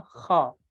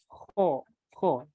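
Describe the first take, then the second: First: "kho" with a throaty Arabic friction; correct Arabic kho. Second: "kho" read as the Japanese "ho"; "kho" as a Japanese transliteration would give it; inexact Japanese-style kho. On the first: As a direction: say "kho" slowly, as the Arabic letter. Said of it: "Harusnya kho ya". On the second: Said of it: "Padahal ini tidak begitu tepat". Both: Shown as a demonstration.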